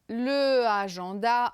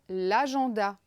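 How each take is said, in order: First: The article keeps its own vowel before the noun. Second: The article's vowel drops and merges with the noun. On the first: The speaker calls it wrong. "ce n'est pas possible, c'est interdit" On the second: The speaker calls it right. "alors je vais dire l'agenda"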